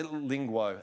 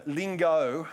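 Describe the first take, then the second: First: "lingo" mispronounced as "ling-gwo"; slip of the tongue. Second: Said in the usual way. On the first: Real, not acted. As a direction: put a w sound into the end of "lingo".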